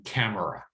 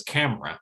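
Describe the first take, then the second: First: "camera" in three syllables, CAM-er-a; unreduced form. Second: "camera" in two syllables, CAM-ra; middle syllable reduced. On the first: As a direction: keep the middle vowel in "camera". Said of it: "they really mean camera". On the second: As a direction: drop the middle vowel of "camera". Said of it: "they have reduced that middle syllable". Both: Shown as a demonstration.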